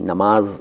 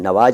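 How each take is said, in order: First: The middle consonant is an m sound. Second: The middle consonant is a v sound. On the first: The speaker calls it right. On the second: The speaker calls it wrong. "कुछ लोग कहते हैं नवाज पढ़ने, नवाज नहीं"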